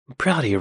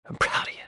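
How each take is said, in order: First: Said in the usual way. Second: Whispered aside. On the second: Real, not acted. Repeats praise as aside.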